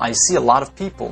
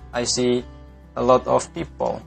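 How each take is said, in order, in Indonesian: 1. Bunyi p diucapkan dengan letupan kuat. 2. Bunyi p diucapkan lembut tanpa letupan. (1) "Kan keren tuh kalau Anda bilang" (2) "daripada Anda bilang"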